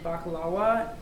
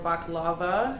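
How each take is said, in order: First: It is said with a foreign, non-American pronunciation. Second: It is said with a typical American pronunciation.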